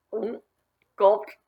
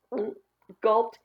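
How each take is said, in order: Both takes have the same delivery.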